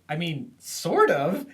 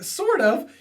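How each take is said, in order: First: Hesitant shrug. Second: Much higher, louder squeaky repeat of Sort of; mocking echo. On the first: Retold or imitated. Idy hesitantly answers Bobby. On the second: Bobby echoes Idy's answer in a high mocking squeak. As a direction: parrot her words back in a high squeak.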